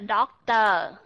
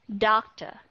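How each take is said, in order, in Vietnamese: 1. Âm tiết cuối được phát âm đầy đủ và rõ ràng. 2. Âm tiết cuối là schwa nhẹ, bị giảm. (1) "mà không phải doctor" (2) "mà không phải doctor"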